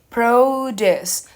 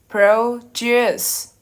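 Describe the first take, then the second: First: The stress is on the first syllable. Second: The stress is on the second syllable. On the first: It is the noun. "the noun... So the stress it is in the O" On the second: It is the verb. "the verb is produce... The stress in is in the U"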